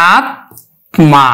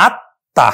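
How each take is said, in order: First: আত্মা said very slowly as "at-ma", t and m both clear; Sanskrit pronunciation. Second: আত্মা said as "atta", doubled t, m silent with a nasal touch; Bengali pronunciation. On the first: Teacher showing students the Sanskrit reading, very slow. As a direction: draw out আত্মা, sounding every letter. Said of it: "উচ্চারণ করব আমরা". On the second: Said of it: "উচ্চারণ করলাম আমরা কিন্তু Bangla". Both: Shown as a demonstration.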